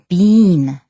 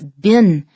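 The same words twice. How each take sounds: First: It is said the British way, rhyming with seen. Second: It is said the American way, not rhyming with seen. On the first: "in Canada and in the U K ... they say been, been to rhyme with seen" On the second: "in American English, in the United States that is, is been"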